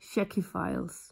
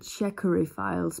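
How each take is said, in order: First: The first word has two syllables. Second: The first word has three syllables. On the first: The speaker calls it right. "It's just checky" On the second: The speaker calls it wrong. "I think I would have said checkery files before"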